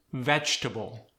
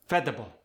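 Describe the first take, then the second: First: Said in the usual way. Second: "Vegetable" shortened to veh-duh-bul; Khmer-style "Vegetable" as veh-duh-bul; fewer syllables. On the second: Shown as a demonstration. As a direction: drop the extra syllable from "Vegetable". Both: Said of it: "extra syllables".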